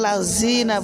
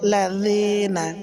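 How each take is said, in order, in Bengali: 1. মাঝের ব্যঞ্জনটি শক্ত j-এর মতো শব্দ। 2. মাঝের ব্যঞ্জনটি নরম, জিভ দাঁতের মাঝে। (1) "যদি কেউ লাযীনা বলে ঝা দিয়ে" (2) "তবে নরম হবে"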